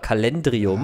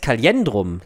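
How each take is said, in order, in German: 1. Das Wort endet auf '-drium', ohne ein 'i' nach 'cal'. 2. Das Wort endet auf '-drum', mit 'li' nach 'ka'. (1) "Die heißt ja nicht" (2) "Die heißt Kaliendrum"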